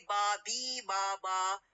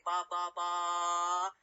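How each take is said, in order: First: "bi" stands out by its "ee" vowel among the "ba" syllables; string of "ba" broken by a contrasting "bi"; one syllable made prominent. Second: "ba" repeated on one level, drawn-out tone; monotone "ba" with the same vowel each time; even, identical syllables. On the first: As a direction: demonstrate "bi" as the odd, prominent syllable. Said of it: "then the b is what? Will be different". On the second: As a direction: keep every "ba" equal, none prominent. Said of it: "For example, when I say". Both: Shown as a demonstration.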